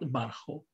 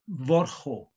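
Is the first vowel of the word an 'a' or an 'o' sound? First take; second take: a sound; o sound. First: The first vowel is an a sound. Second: The first vowel is an o sound. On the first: The speaker calls it wrong. "and not barcho" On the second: The speaker calls it right. "it's pronounced vorcho"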